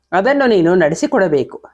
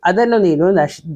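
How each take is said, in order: First: ಅದನ್ನು ನೀನು ನಡೆಸಿಕೊಡಬೇಕು read through cleanly, ನಡೆಸಿಕೊಡಬೇಕು said in full; corrected reading. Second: ಅದನ್ನು ನೀನು ನಶ್- stumbling, the word ನಡೆಸಿ broken off as "ನಶ್"; misread false start. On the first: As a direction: after "sorry", say ನಡೆಸಿಕೊಡಬೇಕು correctly and whole. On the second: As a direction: trip over the verb and cut it off mid-word. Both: Real, not acted. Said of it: "sorry".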